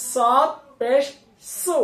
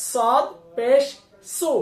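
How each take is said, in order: Both takes have the same delivery.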